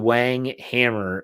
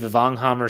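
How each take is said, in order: First: The name is said with an English accent. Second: The name is said with a German accent. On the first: "His name's actually Wang Hammer" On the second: "we just changed it to a German accent"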